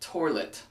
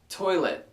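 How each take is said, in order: First: There is an R sound in the middle. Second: There is no R sound in the middle. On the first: The speaker calls it wrong. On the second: The speaker calls it right.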